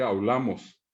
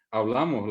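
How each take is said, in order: First: "hablamos" as aulamos, B turned into U; popular mispronunciation. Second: "Hablamos" with a clear B before L; correct pronunciation. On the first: Retold or imitated. Teacher showing what people say, imitated. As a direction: say au-LA-mos. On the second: Shown as a demonstration. Teacher giving the standard word, correct. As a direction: say a-BLA-mos. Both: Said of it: "la gente dice hablamos".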